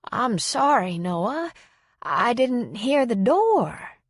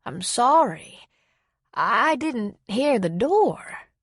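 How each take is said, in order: First: Put-on slow, higher, bewildered old lady; drawn-out apology of a muddled elderly woman; lightly voiced confused elderly woman. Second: Slow, higher, bewildered repeat of the same apology; lightly voiced confused old woman, looping; confused repetition. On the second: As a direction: she says it again, unaware. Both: A narrator's reading.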